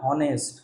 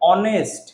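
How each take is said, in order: First: The word starts with an audible h sound. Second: The word starts with a vowel sound, no h. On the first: The speaker calls it wrong. "আমরা কখনো বলি না হনেস্ট" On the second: The speaker calls it right. "দেখো অনেস্ট"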